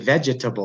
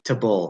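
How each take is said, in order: First: Every syllable is pronounced fully. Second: A vowel is dropped, shortening the word. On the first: The speaker calls it wrong. "Non-English speakers, they say vegetable" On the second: The speaker calls it right. "People say veg vegetable"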